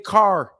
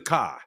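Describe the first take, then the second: First: It is said in a suburban Chicago accent. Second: It is said in a British accent. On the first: "in the suburbs of Chicago" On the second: "In Britain"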